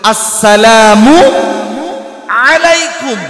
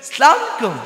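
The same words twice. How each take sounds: First: The greeting is pronounced carefully. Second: The greeting is pronounced carelessly. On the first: Peace be upon you. The speaker calls it right. "সুন্দর করে বলেন" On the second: Wrath is showered upon you. The speaker calls it wrong. "কি বলছে?"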